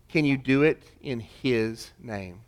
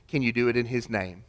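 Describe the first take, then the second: First: The same question again, slowed and pressed home; slower, weighty repeat. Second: Said in the usual way. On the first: Shown as a demonstration. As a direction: let each word land slowly.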